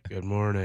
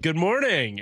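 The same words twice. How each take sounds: First: The greeting is flat and low in energy. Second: The greeting is loud and full of energy. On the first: The tired crowd answers without enthusiasm. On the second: The host is trying to pump up the crowd.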